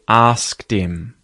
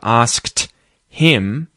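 First: The H at the start of him is dropped. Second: The H at the start of him is pronounced. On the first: "the H can be deleted. It can be muted" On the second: "instead of asked him"

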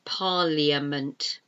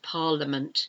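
First: The middle I is sounded as an extra syllable. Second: The middle I is silent, with no extra syllable. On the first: The speaker calls it wrong. "It should be pronounced parliament, but it's not" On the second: The speaker calls it right. "It's pronounced parliament. It's a silent I"

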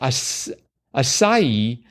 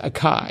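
First: The middle consonant is an s sound. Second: The middle consonant is a k sound. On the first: The speaker calls it right. "Asai is actually pronounced Asai" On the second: The speaker calls it wrong. "So I've been saying it as Akai"

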